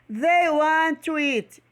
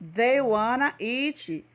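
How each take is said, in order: First: Want and to are said as separate words. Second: Want and to are blended into wanna.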